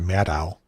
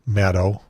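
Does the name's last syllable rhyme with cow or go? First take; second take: cow; go. First: The last syllable rhymes with cow. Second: The last syllable does not rhyme with cow. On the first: The speaker calls it wrong. "like mad cow, but it's not" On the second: The speaker calls it right. "you did a good job in pronouncing her name"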